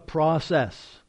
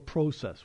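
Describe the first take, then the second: First: It is pronounced the standard, non-Canadian way. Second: It is pronounced the Canadian way.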